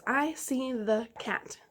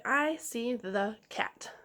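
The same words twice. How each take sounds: First: Slow echo sentence. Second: Each word said slowly and clearly for the class to repeat; slow model sentence. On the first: Teacher repeating for pupils, slow clear echo. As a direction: say it again slowly for them to copy. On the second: Teacher to young readers, slow clear model sentence. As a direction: model it slowly so they can echo it. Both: Shown as a demonstration. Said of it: "Repeat that sentence".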